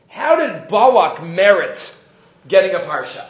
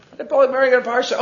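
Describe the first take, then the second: First: Slow, drawn-out question. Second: Rattled off fast; quick restatement of the question to the class; fast repeat. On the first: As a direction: let each word of the question land slowly. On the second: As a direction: fire the same question off quickly. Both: Shown as a demonstration.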